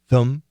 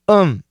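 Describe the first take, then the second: First: Said quickly with a reduced schwa vowel. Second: The th is dropped, leaving just um. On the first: "We can make it a schwa and say them" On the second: "we frequently just say um"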